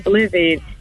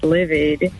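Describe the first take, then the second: First: The word starts with a bl sound. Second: The word starts with a plain l sound. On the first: The speaker calls it wrong. "I used to mispronounce the word livid, and I used to call it blivid" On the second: The speaker calls it right. "Oh, it's livid"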